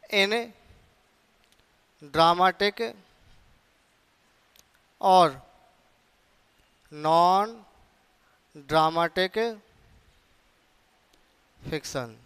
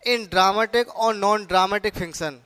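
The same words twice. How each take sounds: First: Long pauses after each word of "in dramatic और non dramatic fiction"; word-by-word dictation. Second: Said in the usual way. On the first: Shown as a demonstration. Phrase repeated for writing down.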